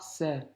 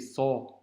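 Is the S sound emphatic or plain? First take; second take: plain; emphatic. First: A thin, plain S sound without emphasis. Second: A heavy, emphatic S filling the mouth. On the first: The speaker calls it wrong. "c'est pas" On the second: The speaker calls it right. "Un gros son"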